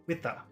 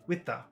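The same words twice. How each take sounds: The two takes are said the same way.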